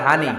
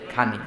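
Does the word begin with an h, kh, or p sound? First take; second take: h; kh. First: The word begins with an h sound. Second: The word begins with a kh sound. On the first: This is how Noakhali people say it. "বলে হানি" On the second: This is how Sylhet people say it. "সিলেটে খানারায় কয় খানি"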